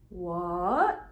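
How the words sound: The pitch dips low, then rises. The speaker is even more surprised. "the third one is like what"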